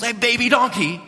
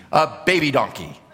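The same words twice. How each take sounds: First: High, disbelieving question; incredulous disciples. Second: Matter-of-fact reveal with a laugh; Jesus calmly presenting his humble mount; deadpan reveal. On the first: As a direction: sound stunned by the choice. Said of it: "you could just imagine the disciples". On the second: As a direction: drop the grand tone and just state it. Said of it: "And then Jesus says". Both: Retold or imitated.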